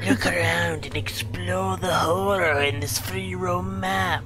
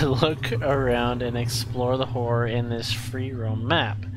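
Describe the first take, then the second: First: The line is read in a spooky voice. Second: The line is read in an ordinary voice.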